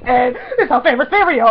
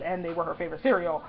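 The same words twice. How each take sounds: First: High, loud gushing; giddy run-on blurting; excited babbling. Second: Said in the usual way. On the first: Retold or imitated. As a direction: babble it out as a starstruck fan. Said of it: "my sentences weren't making sense". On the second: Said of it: "but I didn't care because".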